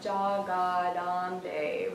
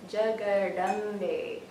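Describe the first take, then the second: First: The A vowels are drawn out long. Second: The A vowels are short uh sounds. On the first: The speaker calls it wrong. "it's not jagadambe, right? Not long A's" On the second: The speaker calls it right. "but short uh sound"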